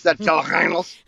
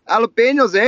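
First: Jalapenos in a lightly faked French accent; a playful stab at French for jalapenos; mock French accent. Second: Jalapenos with a Canadian eh, higher and louder; hammed-up Canadian tag on the word; mock Canadian accent. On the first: Friend joking how the French say jalapenos, mock French accent. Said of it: "That's how they say it in French". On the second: Friend answering how Canadians say it, hammed-up Canadian accent. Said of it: "How do they say it in Canada?".

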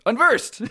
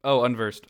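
First: High-pitched exclamation; mock alarm. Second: Said in the usual way. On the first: Reader announces the enemy's arrival, mock high-pitched cry.

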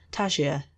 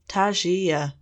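First: Said in the usual way. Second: Tangier drawn out slowly, syllable by syllable, savouring; syllabled slowly. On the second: Shown as a demonstration. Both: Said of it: "She syllabled the word slowly".

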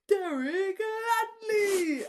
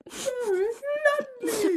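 First: Loud, high, fan cheering the author's name; imitating wild enthusiasm. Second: Even higher, louder fan yell; imitating fists of fury. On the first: Friend mimicking Orla's ecstatic fist-bump cheer, loud and high. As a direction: shout the name like a thrilled fan. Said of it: "fist bumps so enthusiastic to the air". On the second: Retelling Orla punching a friend, a louder, higher ecstatic yell. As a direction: scream the name like a victory punch. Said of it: "like, fists of fury".

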